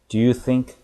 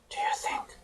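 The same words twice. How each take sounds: First: It is said loudly with a full, strong voice. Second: It is said softly and timidly, with little voice. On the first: The speaker calls it right. "이 정도 톤으로 해주셔야 돼요" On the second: The speaker calls it wrong. "혹여나 뇌가 다칠까봐 ... 이렇게 하시면 안 돼요"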